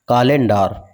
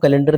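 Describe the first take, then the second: First: Each vowel is said as it is spelled. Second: It is said as the ordinary everyday word. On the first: "काल लेन डार" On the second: "तो हम कैलेंडर को कैलेंडर नहीं पढ़ते हैं"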